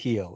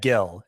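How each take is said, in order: First: The name begins with an H sound. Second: The name begins with a hard G sound. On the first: The speaker calls it right. "You pronounce it Heel, apparently" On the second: The speaker calls it wrong. "I said the name in my head, Gill"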